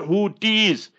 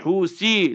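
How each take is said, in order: First: The middle consonant is a t sound. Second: The middle consonant is an s sound. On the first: The speaker calls it wrong. "it's not the Houthis" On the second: The speaker calls it right. "so it's hu si, learn to pronounce properly"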